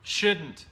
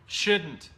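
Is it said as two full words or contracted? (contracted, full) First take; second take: contracted; contracted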